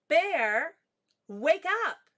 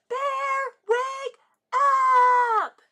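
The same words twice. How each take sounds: First: It is said at a normal, quiet volume. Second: It is yelled loudly.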